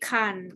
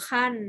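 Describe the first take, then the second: First: The word is said with a low tone. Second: The word is said with a falling tone. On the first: "ขันไม่เอกขัน" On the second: "ขันไม่โทขั้น"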